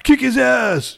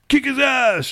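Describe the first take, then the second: First: High, loud kick his ass; hammed-up cheering yell; mock shout. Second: Hammed-up cheering yell; mock shout. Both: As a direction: yell at the screen. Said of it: "scream out at the screen".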